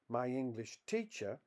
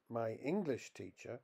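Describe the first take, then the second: First: The stress falls on the word teacher. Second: The stress falls on the word English. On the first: The teacher is from England. "a teacher who happens to be English" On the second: The teacher teaches the English language. "a teacher who teaches English"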